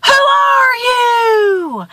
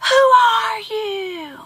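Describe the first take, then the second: First: Very slow, high holler; stretched-out high shout; screamed question. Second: Slow, high call, softened by distance; faraway drawn-out holler; echoed question. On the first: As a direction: call across a canyon to a stranger. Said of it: "And he screams". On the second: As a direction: imitate the echo of a shouted question. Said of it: "And he hears". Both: A narrator's reading.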